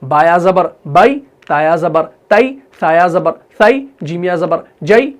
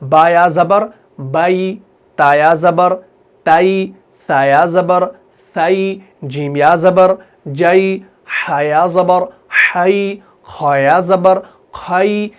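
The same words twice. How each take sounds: First: Short, abrupt "ai" on बाई, तई, सई, जई; quick spelling with the final "ai" cut short; no glide, hit तई and जई briskly; wrong, hard reading. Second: Slow, gentle diphthong on बाई, ताई, साई, जई; soft leen. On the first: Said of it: "ऐसे नहीं पढ़ना है". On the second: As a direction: spell out, then glide softly into a drawn-out "ai". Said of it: "नरमी से अदा कर रहे हैं". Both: Shown as a demonstration.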